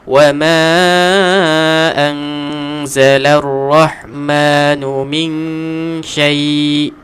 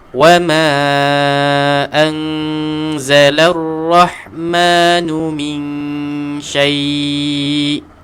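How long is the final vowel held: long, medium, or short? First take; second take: short; medium. First: The final vowel is held only briefly. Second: The final vowel is held at medium length. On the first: "Dua harakat" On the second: "Empat harakat"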